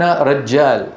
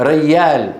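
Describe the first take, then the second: First: رجال with a clear doubled j, "rajjaal"; firm j in the middle of رجال; standard jeem. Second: ريال said "rayyaal", y for j; Kuwaiti-style rayyaal; Kuwaiti jeem as y. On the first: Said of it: "ويعنون". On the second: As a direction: double y in the middle of ريال. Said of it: "يقولون". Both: Shown as a demonstration.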